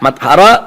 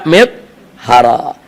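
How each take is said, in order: First: The first syllable has an 'a' vowel. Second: The first syllable has an 'i' vowel. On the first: "mimnya pakai fathah" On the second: "mimnya pakai kas kasra"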